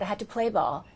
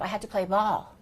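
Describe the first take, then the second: First: The stress falls on a word before 'ball'. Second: The stress falls on the word 'ball'. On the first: The speaker calls it wrong. "you said" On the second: The speaker calls it right. "So stress the ball"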